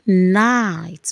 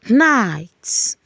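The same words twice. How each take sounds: First: No K sound is heard before the N. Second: A K sound is heard before the N. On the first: The speaker calls it right. "You say night. We call it a silent K" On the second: The speaker calls it wrong. "You don't say night"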